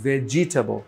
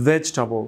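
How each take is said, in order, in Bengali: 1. প্রতিটি স্বরধ্বনি উচ্চারিত হয়, তাই চারটি দল হয়। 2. দ্বিতীয় স্বরধ্বনিটি বাদ পড়ে, তাই তিনটি দল হয়। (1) "নট" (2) "ভেজ এই অংশ একসাথে, আর টাবল এই অংশ আলাদা"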